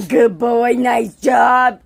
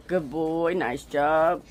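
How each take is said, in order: First: Loud praise. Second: Said in the usual way. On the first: Real, not acted. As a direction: shout the praise. Praising dog loudly.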